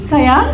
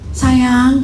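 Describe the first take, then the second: First: The word is called at a medium pitch. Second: The word is called at a low pitch. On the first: The call is raised to get attention. "naik lagi. Dari kunci D ke kunci E" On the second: The listener does not hear the call. "Bilang gitu, nggak denger"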